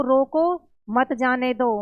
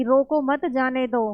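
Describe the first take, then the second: First: "रोको", clear break, then "मत जाने दो" together; pause after रोको. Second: "रोको मत" together, then "जाने दो"; pause after मत. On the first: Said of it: "पहला जो वाक्य है वो कह रहा है". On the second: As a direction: join "मत" to "रोको", break before "जाने दो". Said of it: "दूसरे में बोल रहा है वो". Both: Shown as a demonstration.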